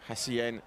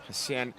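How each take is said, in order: The two takes are said the same way.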